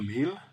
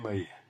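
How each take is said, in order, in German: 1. Das Wort endet auf ein deutliches L. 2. Das L wird durch einen i-Vokal ersetzt. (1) "aus dem Konsonanten L" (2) "machen wir den Vokal I"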